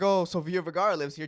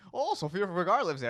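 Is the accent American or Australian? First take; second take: American; Australian. First: It is said in a tour guide's ordinary American accent. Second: It is said in a put-on Australian accent.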